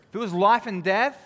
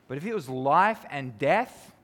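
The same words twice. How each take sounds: First: Life and death pushed higher and louder; emphatic repeat. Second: Said in the usual way. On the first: Shown as a demonstration. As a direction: hit "life and death" hard the second time.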